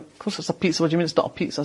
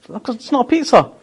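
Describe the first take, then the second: First: A hint of a puzzled waiter brushing it off; retold waiter, dismissive. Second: Higher, insistent mock protest; indignant retort. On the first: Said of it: "the waiter's going like". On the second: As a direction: push back, sure she's right. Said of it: "I said".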